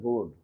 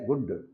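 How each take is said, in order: First: The vowel is drawn out long. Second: The vowel is kept short. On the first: It means goods or an item. "దీర్ఘం తీస్తే గుడ్ వస్తువు" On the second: It means nice or fine. "పొట్టిగా పలికితే గుడ్ మంచి"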